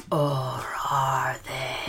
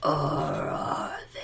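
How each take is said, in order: First: Slow ghostly whisper; low haunting voice. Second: Ghostly unvoiced whisper; low haunting voice. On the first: Acted. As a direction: draw it out slowly like a lurking ghost. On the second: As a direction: breathe it like a ghost from the walls. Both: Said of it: "That was a spooky voice".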